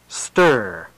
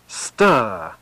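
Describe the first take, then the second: First: It is said in a General American accent. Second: It is said in a British RP accent. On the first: "General American ur" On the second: "RP ur"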